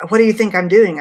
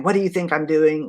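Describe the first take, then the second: First: Loud, higher shouted snap; angry shout. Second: Imitating a rude retort, only a touch sharp; hint at the nurse's snap without raising the voice; mild retold snap. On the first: Retold or imitated. The rude nurse snapping at the daughter, shouted. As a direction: bark it back like the rude nurse. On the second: Retelling a rude nurse's retort, lightly sharp.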